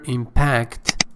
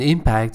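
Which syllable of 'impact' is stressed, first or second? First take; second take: second; first. First: The stress is on the second syllable. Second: The stress is on the first syllable. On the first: It is used as a verb. "impact is a verb. The stress ... is placed on the second syllable" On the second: It is used as a noun. "impact is the noun with the stress on the first syllable"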